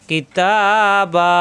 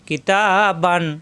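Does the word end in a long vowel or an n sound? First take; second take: long vowel; n sound. First: The word ends with a drawn-out vowel, no n. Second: The word ends with a short vowel plus n. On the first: The reading stops at this word. "এক জবর মনে মনে বাদ দিয়ে একালিপ টান হবে" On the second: The reading continues without stopping here. "অক্ষের সংকেত না আসলে তখন এখানে বান পড়তে হবে"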